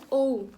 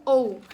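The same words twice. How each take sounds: First: Ou said as the English letter O sound. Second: Ou said louder as the English letter O. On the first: Teacher to her class, saying ou as the English letter. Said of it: "pronunciando ela como". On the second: Teacher repeating to her class the English O sound. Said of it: "pronunciando ela como ou". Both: Shown as a demonstration.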